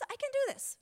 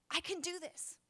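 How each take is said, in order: First: Triumphant squeal of resolve; cheering herself on. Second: Softly muttered to herself, higher; quiet self-pep talk. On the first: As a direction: DO rises very high, bursting. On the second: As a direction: whisper courage to yourself. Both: Retold or imitated. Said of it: "I say".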